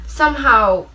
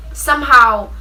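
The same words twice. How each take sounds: The two takes are said the same way.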